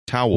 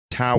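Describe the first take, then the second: First: "Towel" rushed in one quick beat; fast towel. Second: "Towel" stretched out through laughter; slow laughing towel. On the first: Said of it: "you gotta go slow. It's way too fast". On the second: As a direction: drag "Towel" out slowly while laughing. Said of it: "you gotta go slow". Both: Shown as a demonstration.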